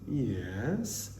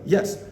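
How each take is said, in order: First: The yes sounds hesitant and unsure. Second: The yes sounds firm and confident. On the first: It really means no or maybe. "the I'm not too sure yes" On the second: The person really agrees. "the affirmative yes"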